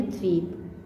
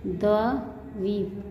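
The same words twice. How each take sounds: First: Said in the usual way. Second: द्वीप very slowly as "da-va ... vip"; split syllables. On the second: Shown as a demonstration. Teacher breaking down the conjunct, द्वीप split slowly. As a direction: take द्वीप apart piece by piece. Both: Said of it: "इसे बोलेंगे".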